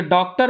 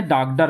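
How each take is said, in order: First: Said in the usual way. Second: Rustic डाकडर with a flat a and a d sound; village pronunciation. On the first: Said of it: "डॉक्टर मूल शब्द है". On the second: Shown as a demonstration. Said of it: "वो डॉक्टर को डॉक्टर भी कहते हैं".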